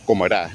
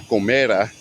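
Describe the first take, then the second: First: "Comerá" stressed on the last syllable, rá; stress on final A. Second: "comera" wrongly stressed on ME; stress on middle syllable. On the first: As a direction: land on the rá of "Comerá". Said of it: "put the emphasis on the". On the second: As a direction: punch the me in "comera". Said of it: "not comera". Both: Shown as a demonstration.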